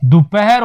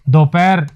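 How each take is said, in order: First: दोपहर said "du-pa-har" with a short u; दोपहर opening on du, h sounded; correct pronunciation. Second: दोपहर said "do-pair" with an o; दोपहर with o in the first syllable; wrong pronunciation. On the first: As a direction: teach दोपहर as "du-pe-her", three clear syllables. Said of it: "दो नहीं करें". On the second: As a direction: show the error, दोपहर as two-beat "do-per". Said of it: "ये भी गलत है". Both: Shown as a demonstration.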